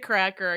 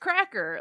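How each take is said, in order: First: The name is said flatly, without emphasis. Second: The name is said with dramatic emphasis. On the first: The speaker calls it wrong. "You can't just say Cracker" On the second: The speaker calls it right. "You have to say it with like it's Cracker"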